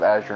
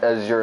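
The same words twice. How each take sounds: First: The name is pronounced the English way. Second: The name is pronounced the French way. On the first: "instead of" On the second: "I'm gonna French it up"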